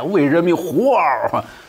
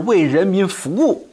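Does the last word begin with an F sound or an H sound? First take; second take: H sound; F sound. First: The last word starts with h and drops w. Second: The last word starts with f and keeps w. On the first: "读音就变成了呼嗷" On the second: "回答是为人民服务，对吧？不对"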